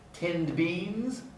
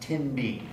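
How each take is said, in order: First: The d before beans is pronounced. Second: The d before beans is dropped. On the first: "Tinned beans becomes tin beans" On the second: "becomes tin beans"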